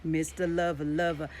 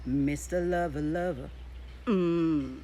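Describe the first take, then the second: First: Sexy baritone. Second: [name]'s sexy baritone. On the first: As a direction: purr it like a lover. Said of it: "he engaged a sexy tone in his voice". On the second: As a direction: croon it like a seductive singer. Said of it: "I think I'll use [name]'s". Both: Shown as a demonstration.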